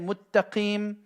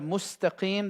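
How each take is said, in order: First: The middle of the word has a double t sound. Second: The middle of the word has an s sound. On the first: The speaker calls it wrong. "they'll say muttaqim" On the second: The speaker calls it right. "instead of mustaqim"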